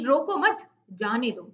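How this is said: There is a pause right after 'mat'. Let the one who is leaving go; do not stop them. "मत के बाद एक बार विराम लेंगे"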